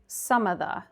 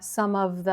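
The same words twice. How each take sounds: First: The v sound in 'of' is dropped. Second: The v sound in 'of' is pronounced. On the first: "We can drop the v sound in of" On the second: "and you did pronounce the sound"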